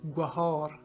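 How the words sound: The word is said with an audible h sound. "in Makrani Baluchi is pronounced as gwahar"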